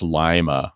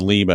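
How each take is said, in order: First: The first syllable sounds like 'lie'. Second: The first syllable sounds like 'lee'. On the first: This is how the Ohio town is said. The speaker calls it right. "no, it's Lima ... like Lima beans" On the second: This is how the city in Peru is said. The speaker calls it wrong. "I always said Lima"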